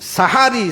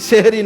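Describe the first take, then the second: First: The word begins with an open 'sa' sound. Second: The word begins with a 'se' sound. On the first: It refers to the dawn meal. The speaker calls it right. "ভাষাটা যেটা বলতে হবে সেটা হলো কি? সাহারি" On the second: It sounds like the word for magic. The speaker calls it wrong. "এই সেহেরি শব্দটা ভুল উচ্চারণ"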